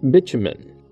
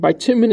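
First: The word is said in a British pronunciation. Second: The word is said in a non-British pronunciation. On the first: "the British pronunciation" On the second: "I pronounce it one way"

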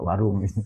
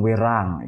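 First: The vowels are Indonesian, like 'warung'. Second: The vowels are anglicized, like 'werang'.

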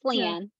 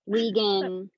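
First: No g sound is in the middle. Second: A hard g sound is in the middle. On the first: The speaker calls it right. "No, it's just Leanne" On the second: The speaker calls it wrong. "I've gotten it all throughout the years of like"

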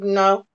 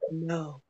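First: It is said with sassy attitude. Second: It is said in a sexy, sultry way.

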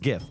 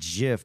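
First: The word starts with a hard G sound. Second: The word starts with a soft J sound. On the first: The speaker calls it right. "but no" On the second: The speaker calls it wrong. "The word that it represents is a soft G"

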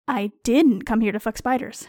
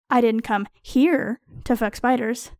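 First: The word "didn't" carries the strongest stress. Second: The word "here" carries the strongest stress. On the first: I deny the accusation that I came for that. "You seem sure I am here solely to fuck spiders, and I resent the implication" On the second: I do that elsewhere, not in this place. "I fuck spiders at other times, in more suitable places"

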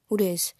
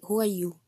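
First: The question is asked with a sassy attitude. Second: The question is asked in a neutral tone.

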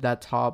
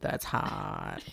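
First: It is said in a plain, ordinary voice. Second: It is said in an imitated, put-on voice. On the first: It is the ordinary phrase. "I've heard that's hot before" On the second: It copies the celebrity's signature delivery. "but not like that's hot"

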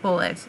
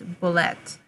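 First: The word is pronounced in an English way. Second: The word is pronounced in a French way. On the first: The speaker calls it wrong. "It's not bullet" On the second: The speaker calls it right. "Apparently it's the French pronunciation"

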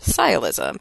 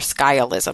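First: The word begins with a plain s sound. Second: The word begins with an sk sound. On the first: The speaker calls it right. "but it's pronounced sialism" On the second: The speaker calls it wrong. "it looks like it should be skialism or skialism, because it's SC"

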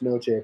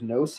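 First: The name is said with its original-language pronunciation. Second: The name is said with an anglicized pronunciation. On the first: This is the family's proper way to say the name. "it's pronounced Noce" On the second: This is how everyone commonly says the name. "So it was Noce my whole life"

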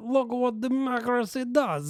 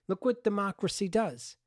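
First: It is said in a put-on foreign accent. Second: It is said in the speaker's plain voice.

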